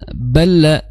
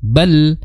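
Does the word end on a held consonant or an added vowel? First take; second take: added vowel; held consonant. First: An extra a vowel follows the final l. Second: The final l is held with no vowel after. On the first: The speaker calls it wrong. "jangan sampai bala" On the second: The speaker calls it right. "ditahan bal"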